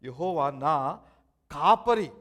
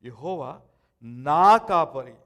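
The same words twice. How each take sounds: First: The word కాపరి carries the emphasis. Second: The word నా carries the emphasis. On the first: He is the one who protects and leads me. "నన్ను కాపాడేవాడు, నన్ను నడిపించేవాడు" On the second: The shepherd belongs to me personally. "నాకు నాకే కాపరి"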